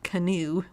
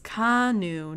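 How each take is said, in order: First: The name is said like canoe. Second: The name is not said like canoe. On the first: The speaker calls it wrong. "not canoe, like I thought it was" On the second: The speaker calls it right. "it's Kanu"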